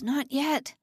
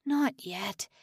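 First: Higher, louder begging; rising desperate plea. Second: Quiet plea. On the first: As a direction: plead harder, voice climbing. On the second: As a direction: beg under the breath. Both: A narrator's reading. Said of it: "Simon groaned inwardly".

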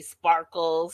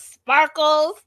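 First: Low, drawn-out mocking Sparkles; Boston accent. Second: Loud, high mocking Sparkles; Boston accent. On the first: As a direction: drop the nickname low and dry. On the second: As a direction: sing out the nickname in a jeer. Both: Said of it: "between the Boston accent".

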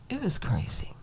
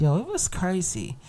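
First: Hushed whispered repeat. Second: Said in the usual way. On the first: Shown as a demonstration. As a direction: drop to a breathy whisper, as if sharing a secret. Repeats line, then whispers it.

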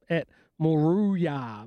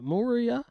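First: Moruya said slowly and tentatively, mo-ROO-ya; unsure Moruya. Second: Moruya asked with a high rising question tune. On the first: Host unsure of a race town name, careful slow pronunciation. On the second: Host doubting his own pronunciation, rising question. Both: Real, not acted. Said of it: "I'm not sure how to pronounce it".

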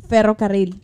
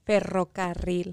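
First: Ferrocarril with rolled double r. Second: Ferrocarril with a soft untrilled r; weak r. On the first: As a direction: trill the rr in Ferrocarril loudly. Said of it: "how do you say railroad". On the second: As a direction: Ferrocarril slow, rr barely rolled. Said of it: "do you have trouble rolling your R's". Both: Shown as a demonstration.

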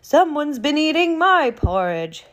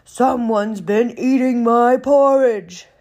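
First: Higher, louder mother bear voice; raised, high-pitched storybook mama voice; medium-sized Mama Bear. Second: Loud, booming bear voice; big indignant bear roaring out each word; great huge Papa Bear. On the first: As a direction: exclaim it as an indignant Mama Bear. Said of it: "in her medium-sized mama voice". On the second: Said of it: "in his great huge voice". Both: Acted.

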